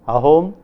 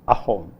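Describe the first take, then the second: First: The word begins smoothly on the vowel. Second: The word begins with a glottal catch. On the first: "Instead of ahom" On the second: "if a word begins with a vowel, then it begins with a glottal stop"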